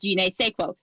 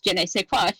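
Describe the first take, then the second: First: The phrase is pronounced in a garbled, mangled way. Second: The phrase is pronounced in the standard French way. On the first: The speaker calls it wrong. "Amber pronounced it" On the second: The speaker calls it right. "She knows how to pronounce"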